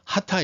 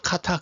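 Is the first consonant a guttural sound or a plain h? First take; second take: plain h; guttural. First: It starts with a soft plain h sound. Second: It starts with a rough guttural throat sound. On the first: The speaker calls it wrong. "하타 이렇게 읽으시는 분들도 많아요. 근데 그거는 아닌 것 같습니다" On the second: The speaker calls it right. "이스라엘 사람들은 이거를 카타 카타 그렇게 발음하더라고요"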